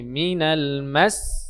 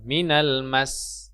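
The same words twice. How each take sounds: First: The last syllable is pressed with raised pitch. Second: The last syllable is said plainly, without pitch. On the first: The speaker calls it right. "nadanya itu agak ditekan tinggi" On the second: The speaker calls it wrong. "bukan minal mas"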